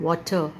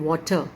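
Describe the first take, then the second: The two takes are said the same way.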